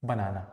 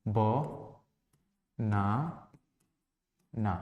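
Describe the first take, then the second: First: Said in the usual way. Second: "ब, ना, ना" as three separate syllables with clear pauses. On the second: Shown as a demonstration. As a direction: count out "ब, ना, ना" one low, soft syllable at a time. ("ब, ना, ना" हर syllable अलग, रुक-रुक कर, धीमी आवाज़ में) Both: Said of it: "बनाना में कितने सिलेबल हैं".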